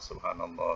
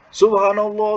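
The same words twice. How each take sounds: First: It is said in a soft, normal voice. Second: It is said in a loud, forceful voice.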